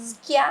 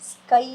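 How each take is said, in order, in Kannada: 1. ಈ ಪದ ya ಶಬ್ದದಲ್ಲಿ ಕೊನೆಯಾಗುತ್ತದೆ. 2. ಈ ಪದ ai ಶಬ್ದದಲ್ಲಿ ಕೊನೆಯಾಗುತ್ತದೆ. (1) "ಸ್ಕ್ಯಾ ಅಂತ ಓದ್ಲಿಲ್ಲ" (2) "ಸ್ಕೈ ಅಂತ ಹೇಳಿ ಓದ್ತೀವಿ"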